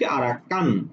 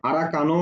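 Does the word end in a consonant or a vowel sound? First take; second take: consonant; vowel. First: The word ends on a closed consonant. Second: The word ends with an added vowel sound. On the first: The speaker calls it right. "কি বলছি আরা কান" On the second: The speaker calls it wrong. "আরা কানো বলতে পারবো না"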